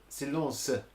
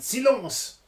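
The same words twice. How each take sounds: First: The final e is sounded and emphasised. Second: The final e is silent. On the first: "you add the e" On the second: "the French teacher went silence"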